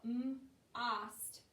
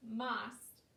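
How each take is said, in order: First: M, ost split into separate sounds; sounded out. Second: Said in the usual way. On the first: Shown as a demonstration. Teacher sounding out a word for kids, segmented. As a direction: break m off from ost. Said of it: "and you sound it out". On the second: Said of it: "and that doesn't make sense".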